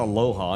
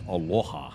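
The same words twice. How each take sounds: First: It is said in a plain, unaccented way. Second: It is said in a Hawaiian accent.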